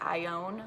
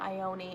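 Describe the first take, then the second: First: The name sounds like 'I own'. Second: The name does not sound like 'I own'. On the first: The speaker calls it right. "like I own a car" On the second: The speaker calls it wrong. "it's not Ione"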